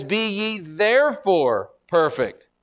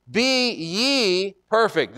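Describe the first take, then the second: First: Slow verse, hitting "therefore" hard; stress on THEREFORE. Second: "ye" raised high and stretched out; slow, deliberate, leaning on "ye"; stress on YE. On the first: Preacher pointing to the reason, emphasis on "therefore". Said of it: "But then he says". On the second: Preacher singling out the disciples, emphasis on "ye". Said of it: "There is the emphasis". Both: Shown as a demonstration.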